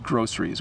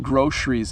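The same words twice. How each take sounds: First: The middle consonant sounds like 's'. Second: The middle consonant sounds like 'sh'. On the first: "the proper way to say it is groceries" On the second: "we do shush it a little bit. We do sometimes say that"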